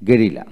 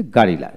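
First: গেরিলা with an e sound, the Bangla way; Bangla pronunciation. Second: গারিলা with an open a sound, the English way; English pronunciation. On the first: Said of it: "Bangla হলো গেরিলা". (Bangla উচ্চারণে গেরিলা) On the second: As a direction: say গারিলা with a, not e. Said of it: "ইংরেজিতে গারিলা". (ইংরেজি উচ্চারণে গারিলা, আ ধ্বনিতে) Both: Shown as a demonstration.

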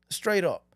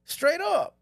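First: Said in the usual way. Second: Emphatic. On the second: Shown as a demonstration.

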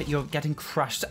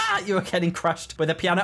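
First: Said in the usual way. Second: Higher, laughing gloat; gleeful taunt. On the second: Real, not acted. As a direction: crow it at your victim.

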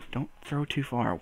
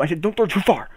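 First: Said in the usual way. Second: Too far pressed firmly, correcting a mishearing; stress on too. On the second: Real, not acted. Correcting himself while juggling, stressing "too far". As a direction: lean on "too far" so it can't be heard as "two". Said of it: "I didn't say don't throw two".

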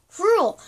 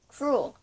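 First: Cruel! yelled high and loud; loud exclamation. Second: Said in the usual way. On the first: Shown as a demonstration. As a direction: shout the word Cruel with a falling end.

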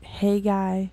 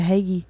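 First: Haggai said HAY-guy; alternative pronunciation. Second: Haggai said HAY-ghee; old pastor's pronunciation. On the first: Shown as a demonstration. Quoting a version she has heard, Haggai as HAY-guy. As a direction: say Haggai with a long A, ending in "guy". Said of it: "I've heard, like". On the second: Retold or imitated. Quoting an old pastor's version, Haggai as HAY-ghee. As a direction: say Haggai with a long A, ending in "ghee". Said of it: "old pastor that used to call it".

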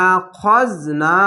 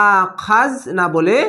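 First: আখজ with a short heavy a on খ; correct reading. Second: আখাজ said with a long open a after খ, marked as wrong; wrong reading. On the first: Teacher giving students the right way, slowly. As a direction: say আখজ short and full-mouthed. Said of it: "মোটা অক্ষর". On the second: Teacher showing students the wrong way, slowly. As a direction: say আখাজ with আ-kar to show the mistake. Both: Shown as a demonstration.

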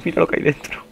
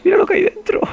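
First: High, alarmed voice at normal volume; high-pitched dismay, short of screaming. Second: Extremely high, loud squeal; shrill falsetto scream of alarm; panicked shriek. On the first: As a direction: point out the danger in a high voice. Sees monster inside, first take. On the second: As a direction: screech it in sheer panic. Sees monster inside, repeats in panic. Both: Real, not acted.

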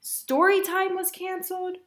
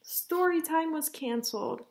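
First: High-pitched lament; exasperated. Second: Said in the usual way. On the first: Acted. Mother recounts disasters to Ava, exasperated. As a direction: list it off in rising despair.

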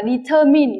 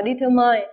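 First: Determine ending in a short "min", rhyming with "in", not "mine"; correct pronunciation. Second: Determine with the last syllable said like "mine"; common mispronunciation. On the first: Teacher modelling determine correctly for students, ending in "-min". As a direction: say determine the right way, last syllable "-min". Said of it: "chúng ta đọc là determine". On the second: Teacher showing students the wrong determine, ending like "mine". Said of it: "chứ không đọc là determine". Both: Shown as a demonstration.

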